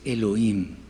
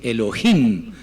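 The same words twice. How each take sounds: First: The h is a faint, barely heard breath. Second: The h is a strong, harsh throat sound. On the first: The sound stands for breath. The speaker calls it right. "una J por allá casi imperceptible" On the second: This is how one community pronounces it. The speaker calls it wrong.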